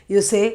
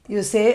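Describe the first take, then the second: The two takes are said the same way.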